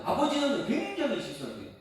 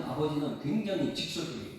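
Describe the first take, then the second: First: Higher, stressed 굉장히 falling hard on 직설적이에요; emphatic repeat. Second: Said in the usual way. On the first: Shown as a demonstration. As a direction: hit 굉장히 and drive the point home.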